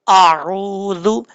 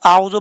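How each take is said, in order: First: आऊज़ु very slow, with a long held oo; lengthened waaw. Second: आऊज़ु quickly, with the oo cut short; waaw dropped. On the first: Teacher correcting the mistake, long steady oo in आऊज़ु. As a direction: draw out the oo in आऊज़ु for a full beat. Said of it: "एक अलिफ की मिकदार लंबा करके". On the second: Teacher warning of changed meaning, short oo in आऊज़ु. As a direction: leave out the lengthening in आऊज़ु. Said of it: "पढ़ेंगे तो वाव हज़फ हो जाएगा". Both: Shown as a demonstration.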